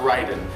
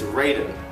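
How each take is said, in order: First: The name is said with a Japanese pronunciation. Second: The name is said with an English pronunciation. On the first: This is how the name would be said in Japanese. The speaker calls it wrong. "not Raiden" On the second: This is how the game itself says the name. The speaker calls it right. "the proper pronunciation of the God of Thunder's name is Raiden"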